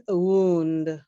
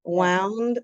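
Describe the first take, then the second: First: "wound" said woond, an injury; "wound" rhyming with tuned. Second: "Wound" said wownd, like past of wind; "Wound" rhyming with round. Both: Shown as a demonstration. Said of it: "pronunciation is totally different".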